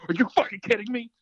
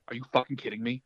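First: Higher and louder, a bursting shout of disbelief; excited yell. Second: Said in the usual way. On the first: Retold or imitated. Friend got the job, an excited yell. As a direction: shout it in sheer joy. Second, disbelieving reaction to the news.

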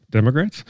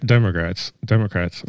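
First: Said in the usual way. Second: Words slurred around braces; talking with braces. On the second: Real, not acted. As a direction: speak through a mouth full of braces. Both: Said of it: "I can't talk with these braces in".

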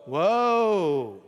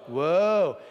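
First: Woe called out loud and long. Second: Woe called out loud, a touch shorter; loud woe again. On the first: Preacher leads the congregation in saying Woe, loud and long. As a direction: call out Woe for the room to echo. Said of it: "Say that word with me". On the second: Preacher repeats Woe with the congregation, loudly. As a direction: call Woe back out with the crowd. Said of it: "Say it again". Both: Shown as a demonstration.

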